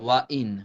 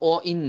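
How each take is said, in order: First: The first word is a full 'wa' sound. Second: The first word is a plain 'o' sound. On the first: The speaker calls it right. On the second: The speaker calls it wrong. "ও ইন না"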